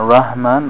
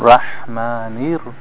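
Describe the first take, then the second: First: The word stops on the n sound. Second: The n is followed by an i vowel. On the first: The speaker calls it wrong. "not Rahman" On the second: The speaker calls it right. "Kasra on the noon"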